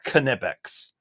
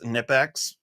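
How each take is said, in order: First: The word starts with a K then N. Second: The word starts with a plain N sound. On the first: This is how some think it is said in German. The speaker calls it wrong. "some people say that this is supposed to be pronounced" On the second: This is how it is said in America. The speaker calls it right. "I call these Nipex"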